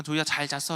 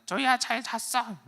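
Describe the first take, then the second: First: Said in the usual way. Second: Very high, slow toy parroting back; 말하는 선인장 흉내. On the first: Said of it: "그러니까는". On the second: Retold or imitated. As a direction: echo it like a talking cactus toy. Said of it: "말하는 선인장". (선인장 인형처럼 높고 느리게 따라하기)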